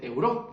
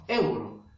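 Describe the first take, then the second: First: "euro" said as eu-RÓ, rising at the end; wrong stress on last syllable. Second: "euro" said as ÉU-ro, falling at the end; stress on first syllable. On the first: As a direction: push the stress onto RO in "euro". ("euro" mal acentuado, como euró) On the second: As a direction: hit EU in "euro" to correct it. ("euro" con la fuerza de voz en EU) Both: Shown as a demonstration. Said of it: "No, euro".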